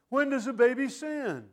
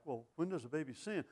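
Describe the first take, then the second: First: Loud and much higher, hammering WHEN; thundering preacher. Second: Soft, wondering question, voice lifting on sin; puzzled listener. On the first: Acted. Preacher repeating the congregant's question, thundering it back. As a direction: throw the question back hard at them. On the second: Retold or imitated. Preacher voicing a puzzled churchgoer, soft wondering question. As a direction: voice a puzzled congregant asking it gently. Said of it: "that look on your face like".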